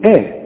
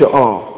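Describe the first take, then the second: First: The hamza sounds light and thin. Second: The hamza sounds heavy and thick. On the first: The speaker calls it right. "كل همزة في القرآن ترقق، إذا ما نقولش آ نقول آ" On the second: The speaker calls it wrong. "ما نقولش آ"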